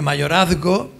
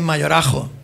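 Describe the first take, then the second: First: The middle cluster is pronounced as zg. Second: The middle cluster becomes a j sound. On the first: "el grupo Z G de mayorazgo" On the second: "se convierte en mayorajo"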